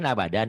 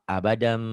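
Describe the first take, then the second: First: The word ends with an n sound. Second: The word ends with a nasal m sound. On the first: "abadan ujungnya kan n nih tanwin" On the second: "Ketemu ba jadi a, abadam gitu"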